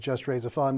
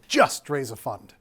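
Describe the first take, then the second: First: The words are said evenly, with no special stress. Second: The word just carries strong stress. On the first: "the name of this presentation" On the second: "you need to say it this way"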